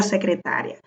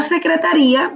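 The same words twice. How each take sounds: First: "secretaria" with the stress on TA; unaccented secretaria. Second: "secretaría" with the stress on RÍ; accented secretaría. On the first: Teacher contrasts two words, "secretaria" stressed on TA. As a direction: keep the I of "secretaria" short after a strong TA. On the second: Teacher contrasts two words, "secretaría" stressed on the I. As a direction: split the ending of "secretaría" into RÍ-a. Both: Shown as a demonstration. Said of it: "no es lo mismo que la secretaria".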